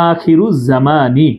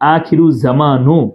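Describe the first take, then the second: First: The last word ends in an 'ee' vowel. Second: The last word ends in an 'oo' vowel. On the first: The speaker calls it right. "এই জায়গার মধ্যে হবে আখিরু জামানি" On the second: The speaker calls it wrong. "এটা কখনো আখিরু জামানু হবে না"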